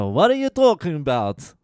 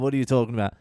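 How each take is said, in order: First: Put-on loud, high stab at a Greek accent; badly faked Greek man's accent, pitched up; attempted Greek accent. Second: Said in the usual way. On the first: Old Greek man protesting in the queue, attempted Greek accent. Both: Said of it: "I'm not even gonna fucking try".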